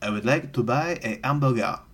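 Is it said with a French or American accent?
French. It is said in Clouseau's heavy French accent.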